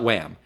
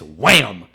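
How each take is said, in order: First: The word is said flatly, without extra force. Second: The word is said loudly with exclamatory force. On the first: The speaker calls it wrong. "you said that wrong" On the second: The speaker calls it right. "Because that has an exclamation point at the end"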